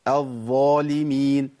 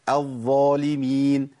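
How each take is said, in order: The two takes are said the same way.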